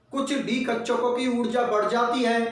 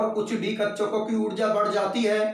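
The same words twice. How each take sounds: Both takes have the same delivery.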